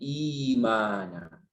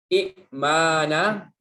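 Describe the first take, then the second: First: The glottal stop becomes a long vowel. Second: A glottal stop follows the first vowel.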